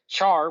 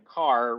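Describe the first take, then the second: First: It starts with a ch sound, like char. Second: It rhymes with far, starting with a k sound. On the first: It follows how the word is spelled. "Char, which not a fan" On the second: It is a personal choice with no clear basis. "And then car, which makes no sense, but is how I've chosen to say it"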